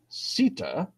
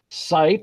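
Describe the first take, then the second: First: Short 'i' vowel with a final vowel sound. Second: The vowel is the modern long 'eye' sound. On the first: This is how the word sounded before the Great Vowel Shift. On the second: This is how the word sounds today.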